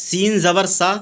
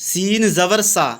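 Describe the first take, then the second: Both takes have the same delivery.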